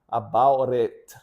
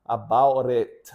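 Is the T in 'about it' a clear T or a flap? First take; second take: flap; flap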